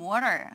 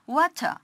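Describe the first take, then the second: First: The T is softened, American style. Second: The T is fully pronounced, British style. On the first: "T 발음을 거의 연화시키라고 우리가 미국식 발음 배울 때 그렇게 배우지 않았습니까?" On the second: "영국, 호주식은 T 발음은 굉장히 정직하게"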